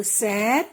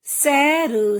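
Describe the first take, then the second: First: Said in the usual way. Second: "सैर" split slowly as सै-र; teacher's drawn-out "सैर"; sounding out. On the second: Shown as a demonstration. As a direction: stretch each sound of "सैर". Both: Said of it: "कुछ ए के शब्द भी हैं".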